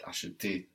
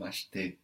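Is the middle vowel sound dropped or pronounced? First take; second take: pronounced; dropped. First: The soft middle vowel is lightly pronounced. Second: The middle vowel is dropped completely. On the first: "this E that is very soft" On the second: "can completely disappear"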